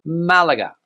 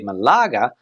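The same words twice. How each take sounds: First: It is said with Spanish pronunciation. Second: It is said with Australian English pronunciation. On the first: "but here in Spain" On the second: "There, people say"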